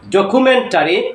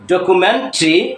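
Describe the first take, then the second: First: The ending keeps a full vowel before 'ree'. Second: The ending is reduced to a single 'tree'. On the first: The speaker calls it wrong. "টরি, টেরি কিংবা টারি না" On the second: The speaker calls it right. "উচ্চারণটা হবে ট্রি"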